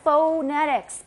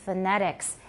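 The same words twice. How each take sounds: First: The first syllable has a full, stressed vowel. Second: The first syllable has a reduced schwa vowel. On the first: The speaker calls it wrong. "It's not phonetics because is the first syllable stressed?" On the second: The speaker calls it right. "So it's pronounced phonetics"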